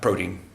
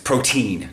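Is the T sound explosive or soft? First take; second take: soft; explosive. First: The T is released softly without a burst. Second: The T is released with a strong burst. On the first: The speaker calls it wrong. "not protein" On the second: The speaker calls it right. "I'll get a little bit more explosive with my T's, and it's protein"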